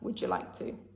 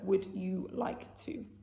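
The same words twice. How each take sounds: First: The word you is weak and reduced. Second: The word you is said fully. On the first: "we put less emphasis on that" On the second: "Instead of"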